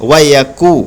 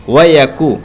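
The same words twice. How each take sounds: The two takes are said the same way.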